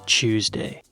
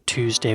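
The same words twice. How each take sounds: First: The word begins with a CH sound. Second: The word begins with a plain T sound.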